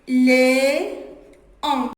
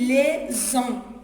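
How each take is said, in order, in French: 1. Les mots sont séparés sans son z. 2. Les mots sont liés par un son z. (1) "on dit les, les, en" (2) "Mais la liaison comme ça"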